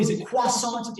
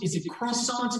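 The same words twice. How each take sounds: First: Croissant said the French way, kwa-son; a French-style croissant, r swallowed; croissant with a nasal French ending. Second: Said in the usual way. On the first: Shown as a demonstration. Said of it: "with an accent or say, normally". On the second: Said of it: "or say, normally".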